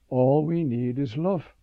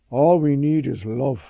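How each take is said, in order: First: Said in the usual way. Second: Lightly imitated Russian accent, louder. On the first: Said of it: "I realize". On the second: Catherine answers the young priest, imitated Russian accent. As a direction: quote her with a loud, light Russian accent. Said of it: "she said in her Russian accent".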